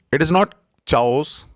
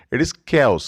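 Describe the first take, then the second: First: "chaos" with ch as in church, chow-s; wrong way. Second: "chaos" as kay-os with a hard k; correct way. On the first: Teacher shows the mistaken ch-sound chaos. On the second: Teacher gives the right kay-os. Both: Shown as a demonstration.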